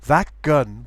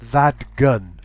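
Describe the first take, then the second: First: The t of that shifts toward a k. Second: The t of that becomes a voiced d. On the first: The speaker calls it right. "you can use the change of place. ... That gun would work okay" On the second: The speaker calls it wrong. "it should not become that gun"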